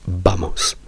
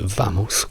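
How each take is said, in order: First: The first sound is a b-like sound. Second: The first sound is a v sound. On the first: The speaker calls it right. "dovrebbe essere vamos" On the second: The speaker calls it wrong. "se voi dite vamos, questo non è spagnolo, è sbagliato"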